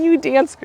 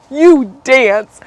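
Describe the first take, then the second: First: Said in the usual way. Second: 'you dance' said louder, with a falling finish; emphatic repeat. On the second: Real, not acted. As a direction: punch 'you dance' the second time.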